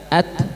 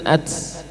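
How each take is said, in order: First: It ends in a plain, clean t stop. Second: It ends in a t with a hissing release. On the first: The speaker calls it right. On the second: The speaker calls it wrong.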